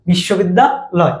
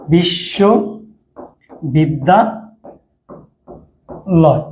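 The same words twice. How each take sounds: First: Said in the usual way. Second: বিশ্ববিদ্যালয় extremely slowly, in chunks with long gaps; syllables drawn apart. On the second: Shown as a demonstration. Teacher writing the word in Bangla for students, slow separated chunks. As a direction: spell out বিশ্ববিদ্যালয় by sound, part after part.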